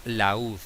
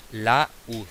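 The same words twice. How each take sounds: First: Said in the usual way. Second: "laúd" split as la-úd with a clear gap; syllable by syllable. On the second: Shown as a demonstration. Teacher showing the stressed U, "laúd" broken in two syllables. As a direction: pause after la, then stressed úd in "laúd". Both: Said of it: "que es la tónica".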